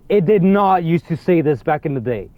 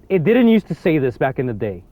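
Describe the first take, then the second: First: "did not" spelled out with firm weight; stress on NOT. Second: Said in the usual way. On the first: Real, not acted. Player insisting the message changed, stress on "not". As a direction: lean on "did not", each word separate. Repeats it with emphasis.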